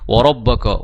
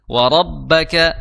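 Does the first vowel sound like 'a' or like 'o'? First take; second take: o; a. First: The first vowel is a rounded 'o'. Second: The first vowel is a plain open 'a'. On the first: The speaker calls it wrong. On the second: The speaker calls it right.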